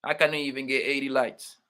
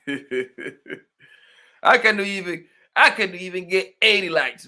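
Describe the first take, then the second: First: Said in the usual way. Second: Laughing through the words, slow at the start; half-laughing complaint about likes; laughing as he repeats the line; laughing disbelief. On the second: Real, not acted.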